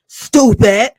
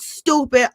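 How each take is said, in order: First: A loud, scornful "Stupid" with a changed voice; loud scoffing stupid. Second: Said in the usual way. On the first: Acted. Vlogger mocking Destiny for missing the hello, loud scornful jeer.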